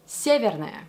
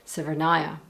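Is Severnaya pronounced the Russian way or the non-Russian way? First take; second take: Russian; non-Russian. First: The name is pronounced the native Russian way. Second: The name is pronounced the common non-Russian way. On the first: "Whereas in Russia, it's Severnaya" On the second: "almost everyone calls the Russian station in Siberia Severnaya"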